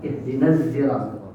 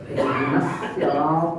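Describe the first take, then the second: First: The word begins with a z sound. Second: The word begins with a plain s sound. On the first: "ada yang baca ihdinas zirat dengan zai" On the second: "Tapi ada dengan dengan sin"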